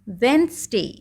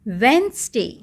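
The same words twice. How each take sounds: First: The d is silent, with two syllables. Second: The d is silent, with two syllables.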